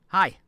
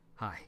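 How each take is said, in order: First: It is said with high intensity. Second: It is said with low, subdued intensity.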